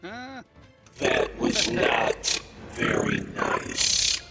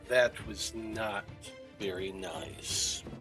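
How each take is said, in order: First: It is said in a put-on monster voice. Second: It is said in the speaker's normal voice.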